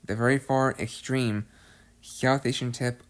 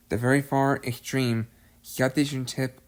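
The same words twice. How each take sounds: The two takes are said the same way.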